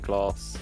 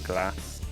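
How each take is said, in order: First: It is said in a southern English accent. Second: It is said in a Midlands accent. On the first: "I would say glass" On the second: "they would say glass"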